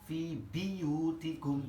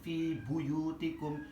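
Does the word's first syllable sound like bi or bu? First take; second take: bi; bu. First: The first syllable has an i vowel. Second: The first syllable has an u vowel.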